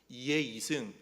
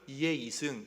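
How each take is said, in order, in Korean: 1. 경상도 방언의 음높이 악센트로 말하고 있어요. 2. 표준 서울 지역 억양으로 말하고 있어요. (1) "경상도 뭐 ... 이렇게 해요" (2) "경기도 다른 거는 이의 이승"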